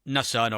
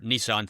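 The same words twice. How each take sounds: First: It is said with a British pronunciation. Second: It is said with an American pronunciation.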